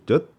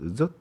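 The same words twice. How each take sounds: First: It starts with a Korean ㅈ sound. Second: It is said with a northern Vietnamese accent. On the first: "한국의 지읒 발음으로 젓, 젓 이러면 안 돼요. 이거는 틀린 발음이에요" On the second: "북쪽은 젓, 젓 이렇게 발음을 해요"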